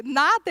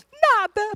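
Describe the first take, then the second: First: Said in the usual way. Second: High-pitched acted tearful denial; imitated high crying answer; mock crying. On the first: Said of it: "Aí ele". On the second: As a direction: deny it in a high, weepy voice. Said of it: "A gente tá lá chorando".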